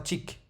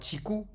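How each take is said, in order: First: The word stops on k with no vowel. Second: The word ends with a u vowel after k. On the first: The speaker calls it right. "mais ce sera tik" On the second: The speaker calls it wrong. "ce ne sera pas tiku"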